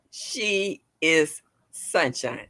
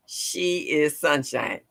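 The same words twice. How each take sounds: First: Slow, word by word; slow and broken up. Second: Slow, each word apart; slow and broken up. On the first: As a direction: break it up and take it slowly. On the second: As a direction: say it slowly, splitting the words. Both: Shown as a demonstration. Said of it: "I have to say that slow and break it up".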